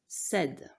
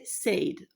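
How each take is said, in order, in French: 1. La voyelle est courte, comme dans 'bed'. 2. La voyelle est longue, comme dans 'made'. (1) "Or, ça se prononce said" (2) "si on suit l'orthographe, devrait se prononcer said"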